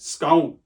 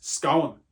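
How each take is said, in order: First: Said in the usual way. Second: "scone" in a Dublin twang, stretched into two syllables. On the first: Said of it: "put a bit of a Dublin twang in it". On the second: Shown as a demonstration. Teacher playing up a pronunciation for students, Dublin twang. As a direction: put Dublin into "scone": "scow-un". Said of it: "Dublin twang in it, put two syllables in it".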